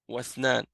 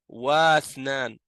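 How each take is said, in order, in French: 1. La voyelle après 'wa' est complètement omise. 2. La voyelle après 'wa' est prononcée séparément. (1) "Non, Wathnan" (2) "On dit pas Wathnan"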